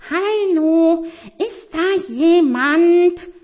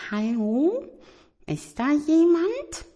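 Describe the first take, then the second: First: Hoch und laut ins Dunkle gerufen; lauter gerufen. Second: Hohe, zaghafte Kuscheltierstimme; ängstlich gefragt. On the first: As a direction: diesmal laut rufen, langsam und gedehnt. No answer, calls louder. (Tiger ruft laut, weil keiner antwortet) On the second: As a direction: vorsichtig ins Dunkle fragen. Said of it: "Etwas ängstlich flüsterte er". (Tiger fragt ängstlich ins dunkle Zimmer) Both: Acted.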